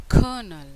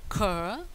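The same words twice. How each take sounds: First: "Colonel" as KER-nul, first syllable loud; stress on first syllable. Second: "colonel" split into kur, pause, nul; syllable by syllable. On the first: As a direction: punch the start of "Colonel", R left silent. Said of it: "The stress on the first syllable". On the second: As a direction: sound out "colonel" in two separate syllables, first one rising. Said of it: "How do you say colonel". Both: Shown as a demonstration.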